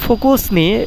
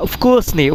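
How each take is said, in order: First: The word starts directly with an f sound. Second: The word starts with a short vowel sound. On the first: The speaker calls it wrong. "এখানে উচ্চারণটা আসলে এভাবে হয় না" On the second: The speaker calls it right. "উফকুসনি এভাবে হবে"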